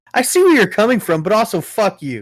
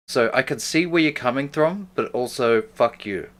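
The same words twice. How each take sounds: First: Mocking echo. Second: Plain. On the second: Real, not acted. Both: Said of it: "That's the meanest thing to say".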